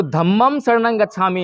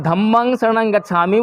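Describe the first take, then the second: First: धम्मं said with final m, "dhammam"; Sanskrit pronunciation. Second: धम्मं said with final ng, "dhammang"; Pali pronunciation. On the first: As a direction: give धम्मं its Sanskrit m ending. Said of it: "वो बोलते हैं संस्कृत में". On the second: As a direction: give धम्मं its Pali ng ending. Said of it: "वो पाली भाषा है". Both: Shown as a demonstration.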